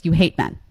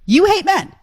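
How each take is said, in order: First: Said in the usual way. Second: "hate" hit high and loud in "You hate men."; blunt emphatic accusation. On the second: Shown as a demonstration. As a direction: punch "hate", much higher and louder. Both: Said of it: "Let's just say it like it is".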